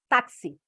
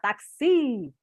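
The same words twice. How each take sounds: First: The stress is on the first syllable. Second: The stress is on the last syllable. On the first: The speaker calls it right. "A mesma coisa com táxi" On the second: The speaker calls it wrong. "Se eu não fizer isso, vai ficar táxi"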